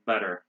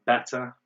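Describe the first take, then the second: First: "better" as BED-er; American "better", flapped T; American pronunciation. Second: "better" as BET-tah, louder and crisp; British "better", hard T; British pronunciation. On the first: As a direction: say "better" with tapped D and final R. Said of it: "double T becomes D sound". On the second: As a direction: say "better" with true T, no R. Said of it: "they would say better". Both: Shown as a demonstration.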